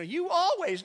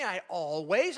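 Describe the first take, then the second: First: High, loud mock "You always"; mock accusation. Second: Said in the usual way. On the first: Pastor imitates a spouse's blame, mock accusing. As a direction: toss out a blaming "You always". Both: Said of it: "No, don't say".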